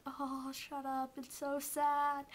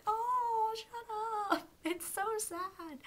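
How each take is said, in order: First: Mock distress. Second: Much higher, loud squealed "Oh, shut up", slowed "so sad"; overwhelmed whine at a sad scene; teary fangirl wail. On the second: Retold or imitated. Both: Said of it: "and I was like".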